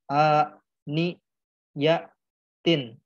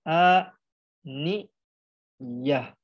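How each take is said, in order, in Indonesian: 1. Kata ini diakhiri dengan bunyi t. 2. Kata ini diakhiri dengan bunyi h. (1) "jikalau dibablas, digas langsung itu tetap dibaca tak" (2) "kalau berhenti jadi a ni ya"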